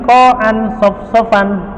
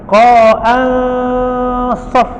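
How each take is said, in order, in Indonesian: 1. Huruf n diucapkan penuh dan jelas. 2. Huruf n berupa dengung sengau yang tersembunyi. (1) "kalau izhar menjadi ko'an sof-sofan" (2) "Ini namanya berada antara izhar dan idgham"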